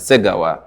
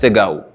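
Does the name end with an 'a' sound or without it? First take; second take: with it; without it. First: The name is said in full, ending in 'wa'. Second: The name is clipped, ending in 'gau'. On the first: The speaker calls it right. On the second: The speaker calls it wrong.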